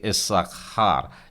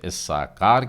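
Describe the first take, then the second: First: The middle consonant is a throaty kh sound. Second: The middle consonant is a plain k sound. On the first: This is the Hebrew way of saying it. "इब्री उच्चारण में गले से आप उस उच्चारण को कर रहे हैं" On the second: This is the usual Hindi way of saying it. "हम इसे इस्साकार कहते हैं"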